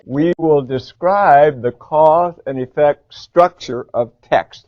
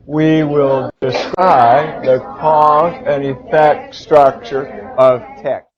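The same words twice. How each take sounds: First: Slow, loud, deliberate choral read; slow model read. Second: Even slower, loud, word by word; slower choral read. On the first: Teacher models the objective for the class to repeat. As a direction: read every word out slowly for students to echo. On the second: Teacher reading together with students in chorus. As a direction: read it with the class, very slowly. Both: Shown as a demonstration. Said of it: "Let's read it".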